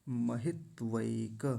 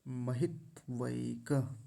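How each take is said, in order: The two takes are said the same way.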